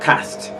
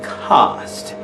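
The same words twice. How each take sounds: First: The vowel is short and clipped. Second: The vowel is long and drawn out. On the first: The speaker calls it wrong. "and not cast" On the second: The speaker calls it right. "in standard British English, the rule will say that because of that pile of consonant, let your vowel be long. So you say cast"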